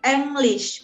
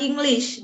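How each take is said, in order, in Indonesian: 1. Vokal pertama terdengar seperti 'e'. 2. Vokal pertama terdengar seperti 'i'. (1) "karena E tetap dibaca E" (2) "bukan English dalam bahasa Jerman"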